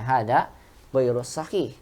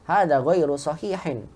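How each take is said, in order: First: The last word stops without any final vowel sound. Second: The last word ends with an added -in sound. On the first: "Cuma terkadang disukunkan" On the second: "Kalau kita berikan harokat jadi ghairu sahihin"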